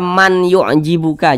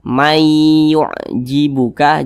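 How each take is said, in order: First: The n is pronounced clearly before the y. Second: The n merges into the following y sound. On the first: The speaker calls it wrong. "jangan dibaca man yu'jibuka" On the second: The speaker calls it right. "Jadi ini dibaca may yu'jibuka"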